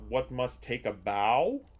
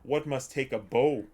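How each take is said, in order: First: Bow rhymes with cow. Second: Bow rhymes with go. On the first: It means bending forward at the waist. "you can read it and it's like" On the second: It means the stick used to play a violin. "violins the pronunciation is usually bow. So it's like if I said"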